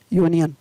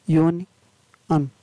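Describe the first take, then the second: First: Said in the usual way. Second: यूनियन slowly, broken in two with a pause before the last syllable; teacher splitting यूनियन into parts, "yuni ... an"; sounded out. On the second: Shown as a demonstration.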